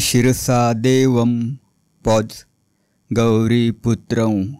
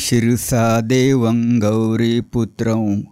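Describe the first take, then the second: First: It pauses after devam, ending with a clear m. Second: It flows on without pause, devam nasalized. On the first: The line is broken into parts. "पॉज घेणार असाल तर" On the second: The line is recited continuously. "ओळ सलग घेणार असाल तर"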